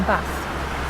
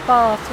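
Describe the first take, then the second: First: "Bath" with a short A, northern style; northern pronunciation. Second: "Bath" with a long AH, southern English style; southern pronunciation. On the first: Londoner showing what they don't say, "Bath" with short A. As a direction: say "Bath" with the A of "cat". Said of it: "I would say Bath rather than Bath". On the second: Londoner showing their mostly southern accent, "Bath" with long AH. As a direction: say "Bath" as "Bahth". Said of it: "a southern accent". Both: Shown as a demonstration.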